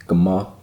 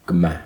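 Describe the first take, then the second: First: "Guma" ending in "ah", as in "father"; back final vowel. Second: "Guma" ending in "a" as in "cat"; front final vowel. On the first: Learner contrasting the other version, "Guma" ending in "ah". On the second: Learner returning to Gaelic, "Guma" ending like "cat". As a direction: bring the last vowel of "Guma" forward, as in "cat". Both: Shown as a demonstration. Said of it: "the pronunciation is a little different".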